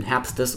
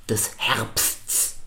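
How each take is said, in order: First: "Herbstes" with an e before the last s; two-syllable version. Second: "Herbsts" slowly, every final consonant sounded; careful complex cluster. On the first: Teacher showing how most people say it, two-syllable form. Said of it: "machen daraus zwei Silben". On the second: Teacher presenting a very hard syllable, careful slow articulation. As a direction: stretch out the hissed ending of "Herbsts". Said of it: "Das ist super schwer auszusprechen". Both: Shown as a demonstration.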